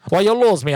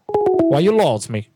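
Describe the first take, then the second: First: Put-on higher, indignant broken-English question in a made-up accent; mixed-up accent, higher. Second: Put-on slow, puzzled broken-English question in a made-up accent; mixed-up accent, slow. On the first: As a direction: push it up in pitch, mock offended. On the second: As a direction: ask it slowly, confused, in the put-on accent. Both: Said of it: "What the heck was that accent?".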